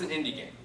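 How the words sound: It sounds flat and dismissive. The game obviously looks like small-studio work. The speaker calls it wrong. "well, obviously it's an indie game"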